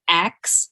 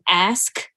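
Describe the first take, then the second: First: The K sound comes before the S sound. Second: The S sound comes before the K sound. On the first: The speaker calls it wrong. "K S" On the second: The speaker calls it right. "S K"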